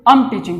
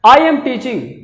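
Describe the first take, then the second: First: The words 'I am' are shortened to 'am'. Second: The words 'I am' are said in full.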